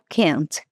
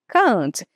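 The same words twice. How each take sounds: First: The vowel is short, like American English. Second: The vowel is long and stretched out. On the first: "um pouquinho parecido aqui com a pronúncia do inglês americano" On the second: "Ele estica a letra A mesmo"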